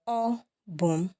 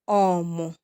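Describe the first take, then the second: First: Every syllable is said in full. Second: The syllables run together into one short word. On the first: "it is me" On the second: "a native would contract it to be ọmụ"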